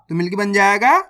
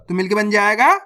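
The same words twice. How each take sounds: The two takes are said the same way.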